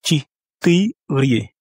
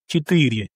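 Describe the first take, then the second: First: Chitiri stretched very slowly into three syllables. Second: Said in the usual way. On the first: Shown as a demonstration. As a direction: pull Chitiri apart, one syllable at a time. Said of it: "Donc, trois syllabes".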